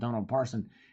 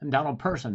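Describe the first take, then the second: First: The surname starts with a 'par' sound. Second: The surname starts with a 'per' sound. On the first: The speaker calls it wrong. "not Donald Parson" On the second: The speaker calls it right.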